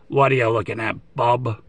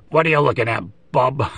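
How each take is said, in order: First: Wolverine impression. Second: A gruffer repeat of the Wolverine line; Wolverine impression. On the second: Collector repeating his Wolverine bit for viewers, gruff mock growl. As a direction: growl it out again like the cartoon Wolverine, half laughing. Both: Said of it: "Trying to do my best Wolverine animated series, uh, impression".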